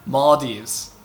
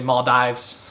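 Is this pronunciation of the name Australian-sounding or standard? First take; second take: standard; Australian. First: The name is said in a standard way. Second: The name is said in an Australian way. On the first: This is the proper way to say it. The speaker calls it right. "What's the proper pronunciation?" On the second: This is how Australians say it. The speaker calls it wrong. "All the Australians like to say"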